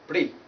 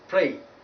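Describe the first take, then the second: First: The vowel is a single steady sound. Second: The vowel glides from one sound to another. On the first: The speaker calls it wrong. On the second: The speaker calls it right.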